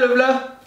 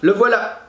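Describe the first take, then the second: First: Voilà is clipped to a quick single syllable. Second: Voilà is said fully with both syllables. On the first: Everyday speech aimed at quick, efficient communication. "Efficace, rapide" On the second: A careful, elevated register as in poetry. "prononcer toutes les syllabes"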